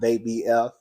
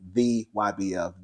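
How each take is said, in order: First: The start sounds like 'they' before 'B F'. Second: The start sounds like 'the why' before 'B F'. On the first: The speaker calls it wrong. "I have been saying they B F and it's not they B F" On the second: The speaker calls it right. "it actually is the Y B F"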